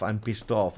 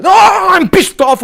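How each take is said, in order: First: Said in the usual way. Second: High, loud, drawn-out angry yell; real furious shout. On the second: Real, not acted. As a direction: explode with real anger, slowly. Furious outburst on live stream.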